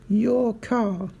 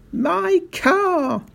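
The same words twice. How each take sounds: First: Calm, innocent echo; unruffled realisation. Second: Very high, anguished shout. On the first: Sergeant placidly echoes the shouting owner, unruffled. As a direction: say it mildly, as if only just understanding. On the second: Mister Hazel frantic about his Rolls, shouting. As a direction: shout it in high-pitched outrage. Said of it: "shouted Mister Hazel". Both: A narrator's reading.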